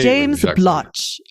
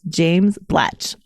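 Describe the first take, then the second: First: It is said in a put-on English accent. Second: It is said in her usual American accent.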